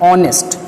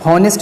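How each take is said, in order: First: The word starts with a vowel, no h. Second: The word starts with an audible h sound. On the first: The speaker calls it right. "यहाँ पे एच silent होता है, तो it is ऑनेस्ट" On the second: The speaker calls it wrong. "हॉनेस्ट नहीं होता है"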